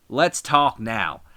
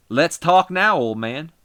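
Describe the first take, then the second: First: "let's talk now" dragged out slowly, stressing "lets"; slow it down, lean on "lets"; slow menace. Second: "Let's talk now" shouted high, hitting "now"; wrestler promo. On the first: Wrestler promo in the ring. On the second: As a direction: call him out loudly, punch "now". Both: Acted.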